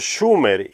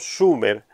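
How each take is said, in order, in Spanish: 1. La palabra empieza con un sonido sh. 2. La palabra empieza con un sonido s simple. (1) "debería de haber sido Sumer" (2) "y no Sumer"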